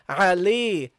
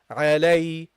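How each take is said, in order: First: The second syllable sounds like 'lee', not 'lay'. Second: The second syllable sounds like 'lay', a diphthong. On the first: The speaker calls it wrong. "then you have people pronouncing it differently. Okay, they say Ali" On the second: The speaker calls it right. "so it is Ali"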